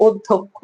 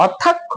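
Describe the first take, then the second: First: অধ্যক্ষ as "od-dhok-kho", rounded o; closed o vowels. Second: অধ্যক্ষ with open "aw", awd-dhak-kho; open first vowel. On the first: Teacher quizzes students, offering অধ্যক্ষ as "oddhokkho". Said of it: "এটার উচ্চারণ হবে". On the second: Teacher quizzes students, offering অধ্যক্ষ with open vowels. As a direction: say অধ্যক্ষ as written, opening on "aw". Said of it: "অধ্যক্ষ নাকি অধ্যক্ষ?". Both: Shown as a demonstration.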